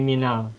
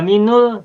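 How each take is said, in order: First: The linking vowel after min is a. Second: The linking vowel after min is u. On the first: The speaker calls it right. "dibaca fathah" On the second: The speaker calls it wrong. "Tidak minul"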